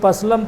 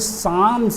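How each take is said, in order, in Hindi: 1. 'p' और 'l' दोनों बोले जाते हैं। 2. 'p' और 'l' दोनों साइलेंट हैं। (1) "कोई पसलम पढ़ता है" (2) "यहाँ पी भी साइलेंट है और एल भी साइलेंट है"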